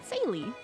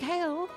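First: The name begins with a soft s sound. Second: The name begins with a hard k sound. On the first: "like a soft C with an A after it" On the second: "I keep like changing the pronunciation I'm doing for this name"

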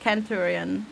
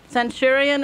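First: The word begins with a K sound. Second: The word begins with an S sound. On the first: The speaker calls it right. "the C is a K" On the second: The speaker calls it wrong. "Centurion is wrong"

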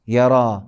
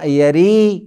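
First: The word ends with an 'a' vowel. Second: The word ends with an 'ee' vowel. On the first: The speaker calls it right. "लिखेंगे या के साथ लेकिन पढ़ेंगे यरा" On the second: The speaker calls it wrong. "यरी नहीं"

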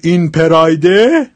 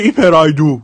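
First: It ends in an 'e' vowel, standard Persian. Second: It ends in an 'o' vowel, Shirazi style.

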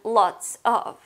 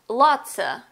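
First: Both words are said fully and separately. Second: The words blend into a reduced 'lotsa'.

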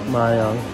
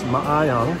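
First: The vowels are merged into fewer syllables. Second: Every vowel is pronounced separately. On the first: "A lot of people just say Mayang" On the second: "they pronounce every vowel. So it's Mayayong"

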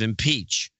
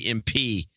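First: The word is said in full, final sound included. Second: The word is cut off before its final sound. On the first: The speaker calls it right. "instead of impeach" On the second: The speaker calls it wrong. "She would never finish a word. She'd say impeach"

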